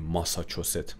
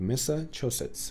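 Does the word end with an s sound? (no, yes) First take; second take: no; yes. First: The word ends without a final s sound. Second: The word ends with a final s sound. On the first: The speaker calls it wrong. "ما میگیم ماساچوست، ماساچوست نیست" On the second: The speaker calls it right. "مساچوستس تلفظش رو دقت کنید"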